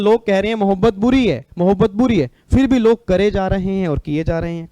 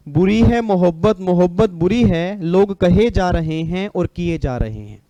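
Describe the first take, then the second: First: Said in the usual way. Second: Slow, lilting couplet delivery; shayari recital. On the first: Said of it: "मतलब". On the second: Acted. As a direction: recite it measured and stretched, like a poet. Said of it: "एक line बोलूंगा बस". (धीमा शायराना लहजा)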